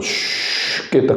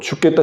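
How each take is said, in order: First: It is said slowly, drawn out long. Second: It is said quickly, clipped short.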